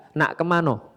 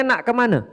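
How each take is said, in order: First: "Nak kemano?" with a final o, softer; Palembang pronunciation. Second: "Nak kemana?" with a final a, higher; first, mistaken try at the Palembang form; "kemana" ending in a, quickly corrected; wrong take. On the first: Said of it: "Kalau orang Palembang bilangnya". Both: Shown as a demonstration.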